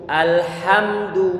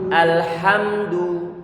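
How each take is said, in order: No difference in how they are said.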